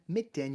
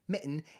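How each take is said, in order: First: The middle t is fully released. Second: The middle t is a glottal stop. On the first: The speaker calls it wrong. "you don't actually say" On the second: The speaker calls it right. "you're saying mitten. It happens in the glottis"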